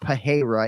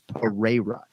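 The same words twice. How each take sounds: First: The name is said with an h sound. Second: The name is said without an h sound. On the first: The speaker calls it wrong. "it's not Pereira in any way, shape, or form" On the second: The speaker calls it right. "there's no H sound whatsoever at play here"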